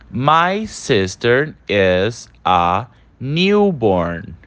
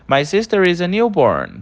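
First: The sentence is read slowly and carefully. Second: The sentence is read quickly without pauses. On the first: "vou ler mais uma vez essa frase devagar" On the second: "Em breve você vai estar falando assim, bem rápido, sem pausa"

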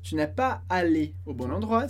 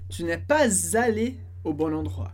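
First: No z sound links pas to allé. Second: A z sound links pas to allé. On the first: "sem liaison" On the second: "Depois do pas, vai ter um som de z"

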